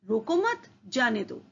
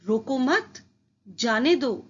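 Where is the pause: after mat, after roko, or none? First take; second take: none; after mat. First: It is said without any pause. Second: There is a pause after the second word. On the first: The meaning is unclear. "पहले वाक्य से अर्थ स्पष्ट नहीं हो रहा है।" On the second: The listener is told to let the person go. "रोको मत के बाद अल्प विराम"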